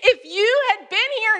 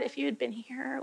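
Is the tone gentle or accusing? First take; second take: accusing; gentle. First: It is said in a heated, accusing tone. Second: It is said in a gentle, soft tone.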